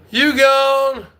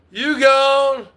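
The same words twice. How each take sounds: The two takes are said the same way.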